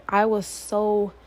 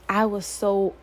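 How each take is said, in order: Both takes have the same delivery.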